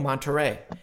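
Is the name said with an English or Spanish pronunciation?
English. The name is said with an English pronunciation. The speaker calls it wrong. "before I met Efren and Marco, I'm like, oh"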